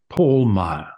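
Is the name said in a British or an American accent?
British. The name is said in a British accent. This is how his American friends liked to call him. "loved to call me Paul Meyer instead of"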